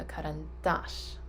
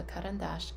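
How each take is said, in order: First: Karandash slowed, landing hard on the final dash; careful learner's demo of karandash with the final A stressed; stress on the last A. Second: Said in the usual way. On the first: Shown as a demonstration. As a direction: lean on the last syllable of karandash, ka-ran-DASH. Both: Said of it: "The accent is on the last A".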